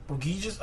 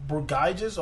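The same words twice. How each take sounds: First: Burgiges with a hard GHEE in the middle; Burgiges, middle vowel like "ee"; "gee" pronunciation. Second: Burgiges with GUY in the middle; Burgiges, middle vowel like "eye"; "guy" pronunciation. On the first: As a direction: say Burgiges as bur-GHEE-jiz. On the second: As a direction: say Burgiges as bur-GUY-jiz, slowly. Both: Shown as a demonstration. Trying two readings of a name.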